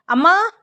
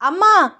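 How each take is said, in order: First: High call for mother, rising at the end; raised, rising summons; calling out loudly. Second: High, louder call that falls at the end; insistent falling summons; calling out loudly. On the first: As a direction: call to mum in the next room, pitch climbing. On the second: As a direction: call mum more insistently, dropping off at the end. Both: Acted. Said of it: "అని గట్టిగా సీత పిలవడంతో".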